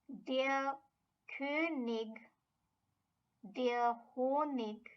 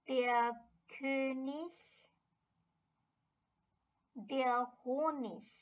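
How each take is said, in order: First: The endings are said with a hard g sound. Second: The endings are said with a soft ish sound. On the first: "one possible combination of pronunciation"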